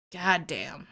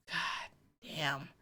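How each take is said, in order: First: Said in the usual way. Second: Breathy whispered god damn after a sigh. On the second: Real, not acted. Fan sighing over Abigail's trauma, whispered. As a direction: let it out on a sigh, barely voiced.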